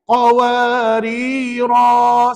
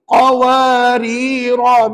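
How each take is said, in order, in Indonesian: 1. Vokal terakhir dibaca panjang, dua harakat. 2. Vokal terakhir dibaca pendek. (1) "Qawarirah yang pertama di hujung ayat lima belas tadi kena baca dua harakat" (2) "ra untuk qawarira itu dibaca dengan pendek"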